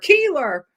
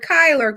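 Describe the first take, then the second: First: The first vowel sounds like 'ee'. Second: The first vowel sounds like 'eye'. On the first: The speaker calls it wrong. "all these years I've been calling him Gordon Keeler" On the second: The speaker calls it right. "So I got Kyler"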